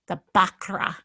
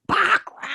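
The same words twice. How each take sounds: First: Said in the usual way. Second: High, drawn-out theatrical "Bakra"; hammed-up title echo. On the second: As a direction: echo "Bakra" high with a stretched last vowel.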